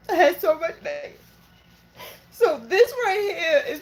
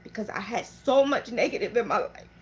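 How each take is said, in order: First: Voice breaking. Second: Said in the usual way. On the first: Real, not acted. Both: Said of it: "I'm so sorry I'm emotional".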